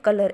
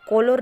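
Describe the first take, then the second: First: The first vowel is a short 'uh' sound. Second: The first vowel is a rounded 'aw' sound. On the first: The speaker calls it right. "कलर ऐसा हम उसका उच्चारण करते हैं" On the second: The speaker calls it wrong. "कॉलर नहीं करते हैं"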